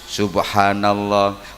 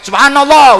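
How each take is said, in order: First: It is said softly and gently. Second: It is said loudly, like shouting.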